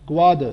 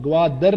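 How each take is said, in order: First: گواد as "gwaa-duh", no r; silent final r. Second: گوادر ending in a full "dar"; wrong take, sound the r in گوادر; counter-example گوادر with a clear final r; pronounced final r. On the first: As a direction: end گواد without any r. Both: Shown as a demonstration. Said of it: "گوادر نہیں اب ہوگا".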